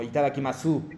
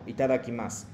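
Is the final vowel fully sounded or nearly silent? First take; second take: fully sounded; nearly silent. First: The final u is clearly pronounced. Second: The final u fades away almost silently. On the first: The speaker calls it wrong. "no es como itadakimasu" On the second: The speaker calls it right. "como que desapareciendo hacia la final"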